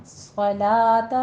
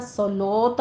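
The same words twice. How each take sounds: First: صلاۃ slowly, heavy s then light "laa"; long whistled s, thin open laa in صلاۃ; thin lam. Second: صلاۃ with rounded "solota"; صلاۃ said "so-loo-ta"; wrong heavy lam. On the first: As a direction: model صلاۃ with clear stretched aa, "salaata". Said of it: "لا باریک ہو جائے گا". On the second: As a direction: show the mistake: thick o after l in صلاۃ. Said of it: "صلاۃ نہیں کہنا". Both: Shown as a demonstration.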